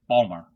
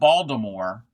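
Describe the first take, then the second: First: The name is squeezed into two short syllables. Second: The name is said with all its syllables. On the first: The speaker calls it right. "It's Balmer" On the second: The speaker calls it wrong. "no, it's not Baltimore"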